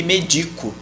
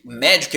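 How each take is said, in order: First: MEDICO stressed on the middle syllable. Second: MÉDICO stressed on the first syllable. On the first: Teacher comparing the rarer verb, medico stressed on DI. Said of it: "muito mais comum que medico". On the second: Teacher comparing the common noun, médico stressed on MÉ. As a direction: say MÉ-dico, stress up front. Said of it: "Médico é muito mais comum que medico". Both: Shown as a demonstration.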